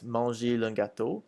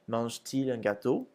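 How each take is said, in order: First: The verb runs straight into il without a t. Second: A t sound separates the verb from il. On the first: The speaker calls it wrong. "if we didn't, it would sound like this" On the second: The speaker calls it right. "so we add a T"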